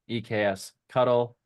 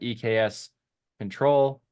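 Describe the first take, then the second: First: The ending is said as the word cuddle. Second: The ending is said as the word control. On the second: "We also would have accepted E K S control"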